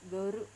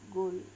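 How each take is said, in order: First: It is said with a long vowel and added ru. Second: It is said as a short English word.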